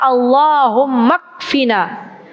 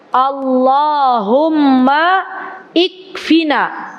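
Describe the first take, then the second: First: No vowel is sounded before the k. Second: An i vowel is sounded before the k. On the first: This is how it is read aloud. "tapi bacanya Allahumma kfina" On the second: This is how it is written. "tulisannya ikfina"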